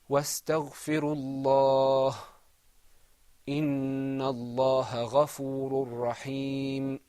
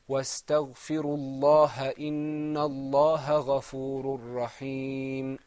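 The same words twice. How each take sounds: First: It pauses after Allah, ending it without a vowel. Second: It runs on without a pause after Allah. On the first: "I'm going to pause" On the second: "when we were reading it all together without stopping"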